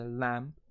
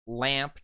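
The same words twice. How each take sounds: First: LAMP with a more open British 'a'; British vowel. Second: Said in the usual way. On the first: Shown as a demonstration. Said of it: "Lamp turns into lamp". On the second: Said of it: "the American Standard".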